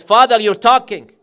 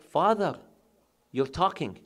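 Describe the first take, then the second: First: "Father, you're talking" cried out loud, higher, in amazement; loud astonished cry. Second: Said in the usual way. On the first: Acted. Daughters crying out that their mute father speaks, loud and astonished. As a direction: shout the miracle to the hall. Repeated as the climax of the miracle.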